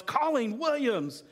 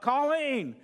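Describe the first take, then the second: First: A higher, sudden mock yell of his wife's name; startled yell. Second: A higher call across the house; calling out for help. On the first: Husband [name] startled in traffic, mock yell. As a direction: blurt her name like a curse in traffic. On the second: Pretend. Husband needing help calls wife across the house. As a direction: call her name because you need a hand. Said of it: "I yell out".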